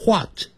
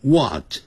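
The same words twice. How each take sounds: First: WHAT as "hwat", h before the w. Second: WHAT as "wat", simple w onset; what without H. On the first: Teacher voices Northeasterners teasing, "what" as hwat. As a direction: open "what" on an airy hw. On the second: Teacher voices Northeasterners teasing, "what" with bare w. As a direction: say "what" with no h at all. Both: Shown as a demonstration. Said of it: "what念成what".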